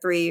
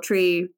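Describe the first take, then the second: First: The word begins with a TH sound. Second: The word begins with a plain T sound. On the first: This is the usual way of saying it. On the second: This is how people in that place said it.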